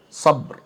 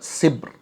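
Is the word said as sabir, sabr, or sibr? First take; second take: sabr; sibr. First: It has an a sound and no second vowel. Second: It has an i sound and no second vowel. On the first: "takhfif bi sukunil ba' ma'a fathi sad" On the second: "wa kasriha"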